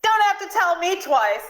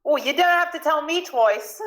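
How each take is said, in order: First: Put-on high shout missing the British accent; botched British accent. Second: High-pitched Cockney exclamation; Cockney accent. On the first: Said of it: "that's not a British accent". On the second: Acted. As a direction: pipe up eagerly in put-on Cockney. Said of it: "not doing the Cockney accent".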